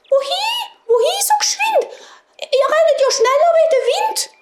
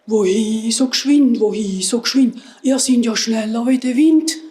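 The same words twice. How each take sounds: First: Tiny, very high mouse voice; squeaking mice. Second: Grunting wild boars. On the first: Mice seeing the runners go past, high squeaky piping. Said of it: "haben angefangen zu piepsen". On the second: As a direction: grunt the words out like a boar. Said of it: "und grunzen". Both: A narrator's reading.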